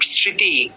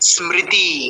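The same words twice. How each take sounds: First: The m sound after s is dropped. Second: The m sound after s is clearly pronounced. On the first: This is the everyday Bengali pronunciation. The speaker calls it wrong. "নট" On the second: This is the Sanskrit pronunciation. The speaker calls it right. "দন্ত স্বর নিচে ম আছে মানে কি উচ্চারণ করতে হবে স্মা"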